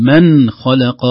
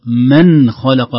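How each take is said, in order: First: "من" with a clearly sounded nun. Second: "من خلق" very slow, with the nun sounded clearly. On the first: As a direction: say "من خلق" with the nun fully voiced. (إظهار النون) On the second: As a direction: stretch "من خلق", nun audible. (إظهار النون ببطء) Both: Shown as a demonstration. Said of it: "النون ظاهرة منطوقة".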